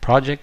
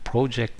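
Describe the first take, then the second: First: The word is said with an American pronunciation. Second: The word is said with a Canadian pronunciation. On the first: "Project is the American pronunciation" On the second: "project is a Canadian pronunciation"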